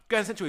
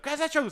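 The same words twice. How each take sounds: First: Chanted, raised high and loud, sing-song; chanted, beg your mate to go there; loud group chant; pleading chant. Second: High, loud yelled chant; full mock scream, louder still. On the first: Retold or imitated. Friends begging the driver. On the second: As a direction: scream the place name at your mate. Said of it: "we started screaming at him".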